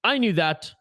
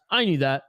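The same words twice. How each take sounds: First: Said in the usual way. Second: "I knew that" dropped lower, self-mocking; low mock-defensive "I knew that"; lower sheepish repeat. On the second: Shown as a demonstration. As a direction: mutter it again like you never doubted it.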